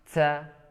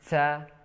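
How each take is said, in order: No difference in how they are said.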